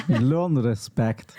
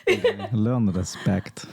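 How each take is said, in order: First: Drawn out, LEARN stressed; slow stern order. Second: LEARN stretched, dropped lower; slower, softer repeat. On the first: Message to people who are always late, slow and stern. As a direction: spell it out slowly to latecomers. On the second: Repeating the message to latecomers, quieter and slower. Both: Shown as a demonstration.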